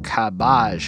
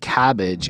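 First: The word's sounds are bent away from usual. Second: The word is pronounced in the ordinary way. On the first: "it's more like cabbage" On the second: "the way he says cabbage isn't cabbage"

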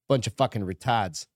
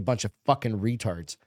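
First: It is said in a New England accent. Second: It is said plainly, without the regional accent.

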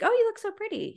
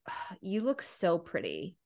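First: It sounds warm and pleased. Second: It sounds angry and resentful.

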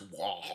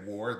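First: The word is said in a mangled orc-like way. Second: The word is said in a normal way. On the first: "orcs can't say words good, ... That's wah" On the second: "they don't say war"

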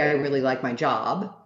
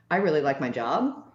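First: The voice falls at the end like a statement. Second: The voice rises at the end like a question. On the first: The speaker is confident in what they say. The speaker calls it right. "Instead of saying something like" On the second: The speaker seems to question their own statement. The speaker calls it wrong. "where they end things like a question"

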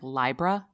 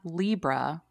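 First: The first syllable sounds like the start of 'library'. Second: The first syllable does not sound like 'library'. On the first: The speaker calls it right. "it's like library. So it should be like Libra" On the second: The speaker calls it wrong. "is not Libra"

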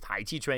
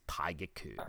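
First: It is pronounced the Mandarin way. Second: It is pronounced the Cantonese way. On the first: "he pronounces it in Mandarin very poorly" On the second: "or in Cantonese"

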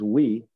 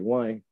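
First: It is said in standard French, like 'we'. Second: It is said in a Quebecois accent, like 'why'.

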